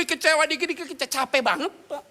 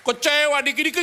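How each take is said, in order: First: Higher, loud whine; high, loud mock whine; whiny complaining congregant. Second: Mock whiny complaint. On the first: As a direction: moan it like a tired churchgoer. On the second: Congregant complaining voice.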